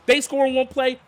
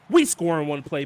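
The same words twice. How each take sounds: First: They punched high; stress on they. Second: We stressed in answer. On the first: Gamer contrasting the two teams, stress on They. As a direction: hit the word They. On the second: Gamer answering the other team's score, stress on we. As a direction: lean on the word we. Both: Real, not acted.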